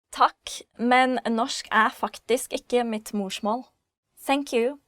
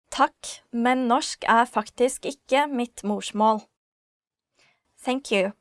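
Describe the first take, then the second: No difference in how they are said.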